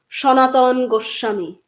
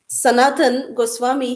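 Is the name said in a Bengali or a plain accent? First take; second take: Bengali; plain. First: The name is said with a strong Bengali accent. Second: The name is said in a plain, unaccented way.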